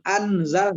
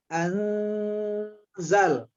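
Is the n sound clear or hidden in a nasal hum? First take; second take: clear; hidden. First: The n is pronounced as a clear consonant. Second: The n is hidden in a nasal hum. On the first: The speaker calls it wrong. "bukan anzal" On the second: The speaker calls it right. "nun sukunnya kita dengungkan, kemudian nun sukun dimasuk, disembunyikan ke dalam zai"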